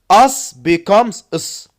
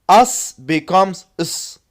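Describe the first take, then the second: Both takes have the same delivery.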